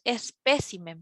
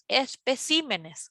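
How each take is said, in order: First: "espécimen" with the beat on "pé"; teacher demonstrates singular "espécimen", stressed on "pé". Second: "especímenes" slowly, with the beat on "cí"; slow teacher's demonstration of "especímenes", stressed on "cí"; stress shifted to CÍ. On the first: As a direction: lean on the second syllable, es-PÉ-ci-men, in "espécimen". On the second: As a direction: lean on the third syllable, es-pe-CÍ-me-nes, in "especímenes". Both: Shown as a demonstration. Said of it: "cambia nuevamente la sílaba tónica".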